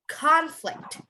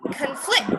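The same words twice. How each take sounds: First: The stress is on the first syllable. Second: The stress is on the second syllable.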